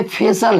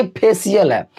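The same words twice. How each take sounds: First: फेशियल as two beats, "phe-sal"; correct pronunciation. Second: फेशियल as three beats, "phe-si-yal"; wrong pronunciation. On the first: Teacher contrasting right with wrong for students, correct pronunciation. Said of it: "ये फेशियल है ना कि". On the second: Teacher contrasting right with wrong for students, wrong pronunciation. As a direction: add an "i-yal" glide to फेशियल. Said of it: "ना कि फेशियल है". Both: Shown as a demonstration.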